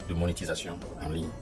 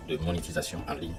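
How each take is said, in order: Both takes have the same delivery.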